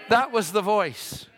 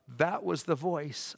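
First: THAT hit high and loud, then falling; slow it down and punch THAT; emphatic repeat. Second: Said in the usual way. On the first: Retold or imitated. Same quote repeated with force.

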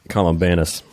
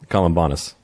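First: Columbanus with a flat 'a' in the third syllable, as in 'ban'; short-a pronunciation. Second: Columbanus with an open 'ah' in the third syllable; broad-a pronunciation. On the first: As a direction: say Columbanus as 'col-um-BAN-us'. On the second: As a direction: say Columbanus as 'col-um-BAH-nus'. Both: Shown as a demonstration. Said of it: "I can't get that right. Which one is it?".

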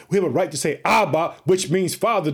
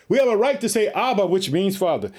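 First: Said in the usual way. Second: Stronger second take. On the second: Shown as a demonstration. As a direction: repeat it harder so it lands. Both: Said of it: "Did you hear it?".

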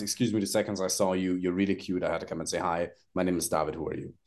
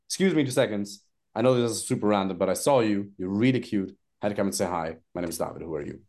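First: Low, soft, calm opener; demo opener, calm. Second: Low and easy pickup line; calm demo opener. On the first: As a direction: demo the easy daytime line to a woman, low and calm. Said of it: "the easiest one is". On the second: Coach demos the daytime opener again, calm. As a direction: say it relaxed and low. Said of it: "It's like". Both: Shown as a demonstration.

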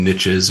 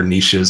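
First: "niches" said as NITCH-iz; "niches" with a short i and a tch sound; variant pronunciation. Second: "niches" said as NEESH-iz; "niches" the French-style way, NEESH-iz; alternative pronunciation. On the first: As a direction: say "niches" to rhyme with riches. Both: Shown as a demonstration. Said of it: "however you want to pronounce it".

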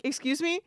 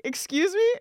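First: A high, polite "Excuse me?" with a rising end; a courteous first try at getting the clerk's attention. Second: "Excuse me?" much higher and louder, rising hard at the end; losing patience with the ignoring clerk; exasperated excuse me. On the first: Ignored, asking again. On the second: Ignored again, escalating. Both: Retold or imitated.

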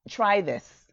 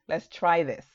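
First: Slow, "try" drawn out and leaned on; urging "try this" slowly, weight on "try"; stress on try. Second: Said in the usual way. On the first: Shown as a demonstration. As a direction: linger on "try" as you urge them. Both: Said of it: "I'm just here to inspire you".

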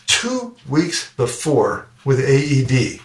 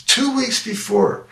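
First: Said in the usual way. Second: "Two weeks before." said much higher and slower, leaning hard on "Two"; emphatic repeat. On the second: Real, not acted. Telling the audience the timing again with heavy stress on "Two". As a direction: land "Two" high and drawn out, marvelling.

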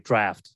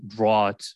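First: Draft with an F, DRAFT; short A and clear FT in draft; spoken pronunciation. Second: Draught as DRAWT, no F; spelling pronunciation. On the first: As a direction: say draft to rhyme with raft. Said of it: "but it's like draft". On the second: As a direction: say draught to rhyme with thought. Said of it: "but it's spelled draught". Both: Shown as a demonstration.

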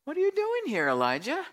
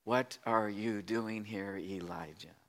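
First: High-pitched pointed question, dropping on the name; questioning God. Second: Slow, low, hushed question; gentle whisper. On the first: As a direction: ask Elijah in a high, raised voice. God questioning Elijah, first telling. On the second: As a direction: ask it softly and slowly, fading on the name. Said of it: "a sound of a gentle whisper". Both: Acted.

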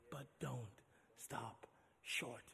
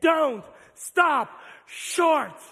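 First: Very slow, much softer whispered plea; whispered refrain over quiet music. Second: Call to repeat. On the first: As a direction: breathe it almost silently. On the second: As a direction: lead the crowd in the chant. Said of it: "Somebody say it with me". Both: Real, not acted.

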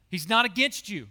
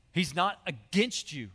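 First: Repeated with more force on not; emphatic repeat. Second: Said in the usual way. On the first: Shown as a demonstration. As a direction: lean into not to drive it home. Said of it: "Hear that".

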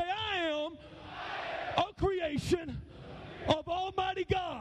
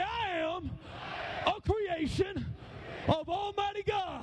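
First: Measured call-out in short phrases, pausing for response; leading a declaration. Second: Higher, slow warrior declaration; drawn-out warrior chant, pitched up. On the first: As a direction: lead the men in a proud chant. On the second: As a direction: lead a battle cry in short phrases. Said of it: "say it like a warrior". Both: Shown as a demonstration.

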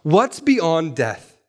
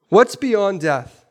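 First: Slow question. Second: Slower, higher repeat. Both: Shown as a demonstration. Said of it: "the question ... is this".

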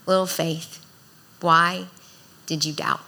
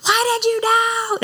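First: Sweet, loving tone. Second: Mock frantic yell. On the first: Shown as a demonstration. Jesus gently asking Peter, sweet and loving. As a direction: gently ask it like a loving father. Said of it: "I can only hear this in a sweet, loving tone". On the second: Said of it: "wasn't trying to have this conversation when he's sinking".

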